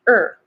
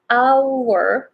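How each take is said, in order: First: The word is reduced to a weak er sound. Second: The word is said with its full vowel.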